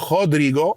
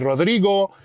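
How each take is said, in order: First: The name is said with Portuguese pronunciation. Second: The name is said without Portuguese pronunciation.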